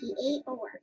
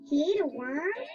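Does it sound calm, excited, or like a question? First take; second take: calm; question. First: It is said as a calm statement. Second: It is said as a question.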